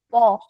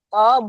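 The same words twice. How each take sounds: First: The vowel is said with rounded lips. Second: The vowel is said with open lips. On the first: The speaker calls it wrong. "bukan monyong" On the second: The speaker calls it right. "tetap terbuka"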